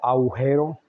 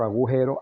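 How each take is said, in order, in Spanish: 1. El sonido de la g se elimina: aujero. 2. El sonido de la g se pronuncia: agujero. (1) "algunos ejemplos de mala adicción que decimos"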